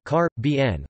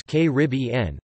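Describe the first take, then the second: First: "car, B N" with main stress on the B; stress on third syllable. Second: "K Rib E N" with the stress on Rib; stress on second syllable. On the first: Reader shows the British preference, "car, B N" stressed on B. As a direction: hit B hardest in "car, B N". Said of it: "with the primary stress on the third syllable". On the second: Reader shows the North American usage, "K Rib E N" stressed on Rib. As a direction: punch Rib in "K Rib E N". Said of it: "with the stress on the second". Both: Shown as a demonstration.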